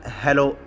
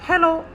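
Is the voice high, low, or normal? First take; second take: normal; high. First: It is said in a normal voice. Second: It is said in a thin, high voice.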